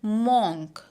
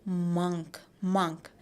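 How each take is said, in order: First: Monk said with an open o like mawnk; mock monk with an o sound; wrong monk. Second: Monk said as muhnk, u like in cup; correct monk. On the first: Teacher imitating the common mistake. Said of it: "people have a tendency to pronounce it as". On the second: Teacher modelling the right vowel for class. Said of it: "but it is". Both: Shown as a demonstration.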